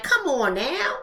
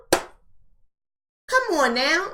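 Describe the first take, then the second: First: Said in the usual way. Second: Very slow, stretched come on now with a rising now; slow, stretched plea with a lift at the end; drawn-out come on now. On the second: Acted. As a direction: drag out the now in disbelief, rising. Repeats the phrase, stretched out.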